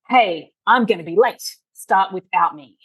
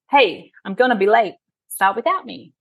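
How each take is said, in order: First: It sounds curt and annoyed. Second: It sounds light and friendly.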